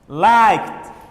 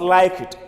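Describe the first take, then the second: First: The ending is a single 't' sound. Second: The ending is an extra 'id' syllable. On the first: The speaker calls it right. "The E D should be pronounced as T" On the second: The speaker calls it wrong. "not like it"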